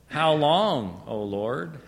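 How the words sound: It sounds weary and exasperated. The speaker dreads having to keep doing this task. The speaker calls it right. "it was sort of like"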